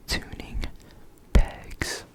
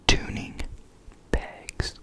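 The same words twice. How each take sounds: The two takes are said the same way.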